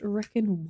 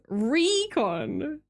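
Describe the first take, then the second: First: It sounds like the word 'reckon'. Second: It sounds like 'ree-con' with a long first vowel. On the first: The speaker calls it wrong. "Am I saying Recon like an idiot?" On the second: The speaker calls it right. "my bad"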